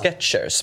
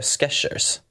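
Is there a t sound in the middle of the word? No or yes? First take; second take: yes; no. First: It is said with a t sound. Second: It is said without a t sound. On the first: The speaker calls it wrong. "Många vill ju säga Skechers, men det är ju inget T i Skechers" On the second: The speaker calls it right. "jag tror man säger Skechers"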